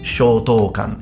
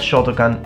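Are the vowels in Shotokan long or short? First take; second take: long; short. First: The vowels are said long. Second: The vowels are said short. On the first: The speaker calls it right. "it's Shotokan. You have to put longer vowels in Japanese" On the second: The speaker calls it wrong. "It's not Shotokan"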